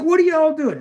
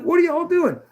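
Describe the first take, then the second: First: Much higher, stunned protest; incredulous. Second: Much higher again, stunned protest; incredulous. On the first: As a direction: throw it up high like you can't believe it. Confused at paramedics grabbing him. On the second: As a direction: pitch it way up in disbelief. Repeated protest to paramedics. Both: Retold or imitated.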